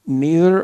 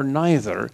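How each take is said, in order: First: "neither" said NEE-ther; slow, stressed "neither", first syllable like "knee"; English-Irish pronunciation dispute. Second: "neither" said NYE-ther; questioning "neither", first syllable like "nigh"; rival pronunciation. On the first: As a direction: say "neither" with a long ee. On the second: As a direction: say "neither" with an eye vowel. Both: Shown as a demonstration. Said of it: "arguing about, do you say".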